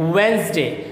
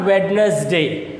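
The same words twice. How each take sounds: First: The first d is silent. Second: The first d is pronounced. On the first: The speaker calls it right. "ये डी जो होता है वो हमेशा क्या होता है? साइलेंट रहता है" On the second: The speaker calls it wrong. "It's not Wednesday"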